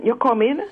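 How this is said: It is said as a question.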